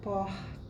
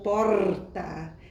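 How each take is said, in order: First: The R is a soft breathy glottal sound. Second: The R is a rolled trill. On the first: "um R suave, apenas uma raspa a, a nossa glote" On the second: "que já é a vibrante múltipla"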